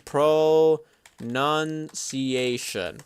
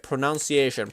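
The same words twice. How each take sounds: First: Pronunciation dragged out very slowly. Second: Said in the usual way. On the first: Shown as a demonstration. Streamer repeating Pronunciation very slowly. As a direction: stretch Pronunciation syllable by syllable. Very slow second read.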